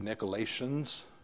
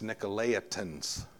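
First: The ending sounds like 'lay-shuns', no separate i. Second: The ending sounds like 'lay-eye-tans', with separate i. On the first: "If it was after the T, it would be" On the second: "but before it, it's"

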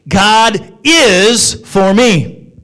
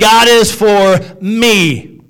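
First: The stress falls on the word is. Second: The stress falls on the word me.

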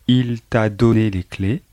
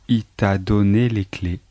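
No difference in how they are said.

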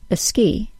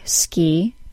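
First: A small vowel comes before the s. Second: The word starts directly with the s.

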